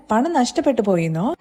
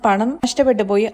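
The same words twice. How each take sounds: First: "പണം നഷ്ടപ്പെട്ടു പോയിന്നോ" with a questioning rise at the end; echoed question. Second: Said in the usual way. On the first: Retold or imitated. Father checking his son's news of lost money, questioning rise on "പോയിന്നോ". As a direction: repeat it back as a question, lifting "പോയിന്നോ".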